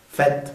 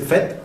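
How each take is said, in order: First: "fête" ending on T; final E silent. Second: "fête" with an added final eu; two-syllable "fête", sounded final vowel; prolonged final E. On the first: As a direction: say "fête" as one syllable, feht. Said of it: "podría ser fête o fête". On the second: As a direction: say "fête" as feh-teu. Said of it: "si la canción exige prolongar". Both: Shown as a demonstration.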